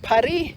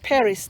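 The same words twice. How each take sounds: First: Paris is said the French way. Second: Paris is said the English way. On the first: This is the proper way to say it. "some people like to call it Paris. That is the proper way to say it" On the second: This is how people in Canada say it. "It's Paris to me. We say that Paris in Canada"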